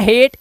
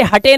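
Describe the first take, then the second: First: हेट in one syllable, long 'ay'; हेट rhyming with 'gate'; correct reading. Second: हटे mis-read as 'ha-tay'; हटे in two literal syllables; wrong reading. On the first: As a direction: say हेट with silent final e. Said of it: "नहीं पढ़ना है हेट". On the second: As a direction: sound the final e in हटे. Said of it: "इसे हटे नहीं पढ़ना है". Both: Shown as a demonstration.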